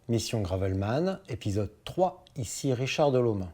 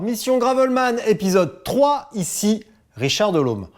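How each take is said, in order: First: It is said with low energy. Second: It is said with high energy.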